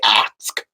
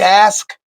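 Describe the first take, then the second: First: The word is said with a k-s sound. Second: The word is said with an s-k sound. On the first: "down there where he from they say ask, A X E D" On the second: "A S K E D"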